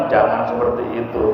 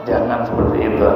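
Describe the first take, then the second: Both takes have the same delivery.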